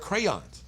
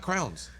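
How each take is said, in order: First: The vowel sounds like the one in day. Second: The vowel sounds like the one in cow. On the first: This is the speaker's own way of saying the word. The speaker calls it right. "They're crayons" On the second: This is how another person says the word. The speaker calls it wrong. "They're not crowns"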